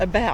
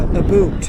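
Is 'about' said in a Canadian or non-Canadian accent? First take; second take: non-Canadian; Canadian. First: The word is said without a Canadian accent. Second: The word is said with a Canadian accent. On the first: "not about" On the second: "They go about"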